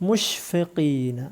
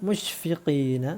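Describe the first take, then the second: Both takes have the same delivery.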